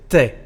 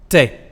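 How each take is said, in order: No difference in how they are said.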